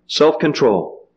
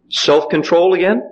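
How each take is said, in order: First: Self-control. said slowly with a falling close; Self-control with a falling tune; slow firm answer. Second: Rising question on self-control; Self-control again? with a questioning rise on again; asking tune. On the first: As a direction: settle it, slow and final. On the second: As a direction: ask it back, rising at again. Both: Shown as a demonstration.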